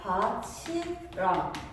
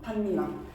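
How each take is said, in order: First: The middle consonant is a ch sound. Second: The middle consonants are a doubled n sound. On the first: It means together with the field. "형태소의 경계에서 치읓으로 발음되는 현상이야" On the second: It means a ridge in a field. "까지 적용이 되면은 반니랑이라고 하는 거야"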